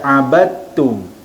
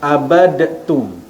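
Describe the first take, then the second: First: The d merges into a doubled t sound. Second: A separate d sound is heard before the t. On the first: The speaker calls it right. "kita baca abattum" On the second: The speaker calls it wrong. "Kita tak baca dengan abadtum"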